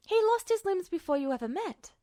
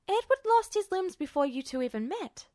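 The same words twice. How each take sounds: First: Lightly voiced woman, steady and sure. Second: Lightly voiced woman, stating it firmly; calm, certain correction of her colonel; stated plainly. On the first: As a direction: repeat it with calm certainty. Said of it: "her voice was so steady and sure". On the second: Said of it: "she stated". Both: A narrator's reading.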